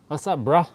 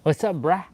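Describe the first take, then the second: First: "bro" with a short "uh" vowel; "bro" said as bruh. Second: "bruh" with an open "a" as in "cat"; "bruh" said as brah. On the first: Greeting a boy, "bro" pronounced "bruh". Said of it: "B R U H is boy". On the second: Greeting a girl, "bruh" pronounced "brah". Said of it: "A H is girl". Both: Shown as a demonstration.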